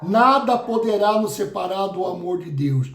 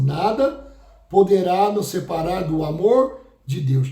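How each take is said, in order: First: Said in the usual way. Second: Nada set apart, then a held pause before the rest; stress with a pause. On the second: Shown as a demonstration. Pastor slowing the verse so the church hears "Nada" alone. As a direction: lift "Nada", pause, then finish "poderá nos separar do amor de Deus". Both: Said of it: "Presta atenção".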